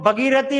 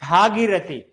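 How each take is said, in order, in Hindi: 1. पहला स्वर छोटा 'a' है। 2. पहला स्वर लंबा 'aa' है।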